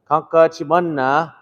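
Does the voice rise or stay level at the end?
rise. The pitch goes up as a question.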